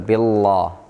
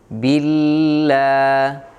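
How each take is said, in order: First: The first vowel is heavy and thick. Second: The first vowel is light and thin. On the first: The speaker calls it wrong. "Jangan dibaca tebal" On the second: The speaker calls it right. "kasrah harus dibaca tipis"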